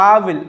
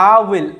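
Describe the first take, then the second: Both takes have the same delivery.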